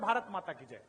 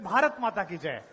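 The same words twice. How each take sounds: First: It is said quietly. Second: It is said louder.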